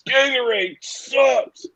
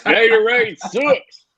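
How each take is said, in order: First: Put-on high, slow country boy voice with a rising end; Water Boy impression. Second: Water Boy impression. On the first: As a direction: whine it slowly like the film's dim hero. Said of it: "Kyle probably hears guys from the Water Boy". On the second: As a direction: drawl it slowly like the dim country boy. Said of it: "laughing uncontrollably about the Gatorade comment".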